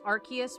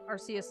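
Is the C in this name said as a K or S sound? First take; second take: K sound; S sound. First: The C is said as a K sound. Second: The C is said as an S sound. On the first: "I thought it was Arceus because it's R K S" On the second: "Arceus is a soft C"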